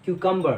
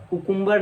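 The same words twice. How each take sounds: First: क्यूकम्बर starting 'kyoo-kum'; taught pronunciation. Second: कुकुम्बर starting 'koo-KOOM'; wrong pronunciation. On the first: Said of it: "इसकी right pronunciation होती है". (क्यूकम्बर, 'क्यू-कम' साफ़ बोलकर) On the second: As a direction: say कुकुम्बर with two 'oo' vowels. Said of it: "कुकुम्बर नहीं". (कुकुम्बर, दोनों जगह 'उ' बोलकर) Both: Shown as a demonstration.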